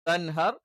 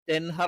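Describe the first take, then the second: First: The first syllable has an 'a' vowel. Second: The first syllable has an 'e' vowel. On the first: The speaker calls it right. "ത എന്ന് തന്നെ വേണം" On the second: The speaker calls it wrong. "തെൻഹർ ആയി പോകാൻ പാടില്ല"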